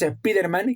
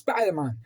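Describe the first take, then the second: First: The name is said with Spanish sounds. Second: The name is said with English sounds. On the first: This is how people in Spain have always said it. "Así que decimos Spider-Man" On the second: This is how the name is meant to be said. "Sabemos de sobra que es Spider-Man"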